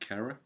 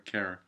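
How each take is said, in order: First: The name is said in an English accent. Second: The name is said in a Canadian accent. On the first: "if you say it in an English accent, it's just Cara" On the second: "because she's Canadian, so Cara"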